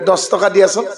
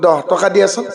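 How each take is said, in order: First: The first word starts with an s sound. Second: The first word starts with a throaty kh sound. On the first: The speaker calls it wrong. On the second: The speaker calls it right.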